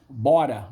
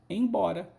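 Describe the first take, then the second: First: The word is said without its initial em syllable. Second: The word is said in full with initial em. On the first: "Embora virou bora" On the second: "Embora virou bora"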